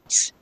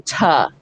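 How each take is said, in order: First: The consonant is said alone with no vowel. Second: The consonant is followed by an added vowel. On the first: The speaker calls it right. "I just say t" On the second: The speaker calls it wrong. "I don't say ta"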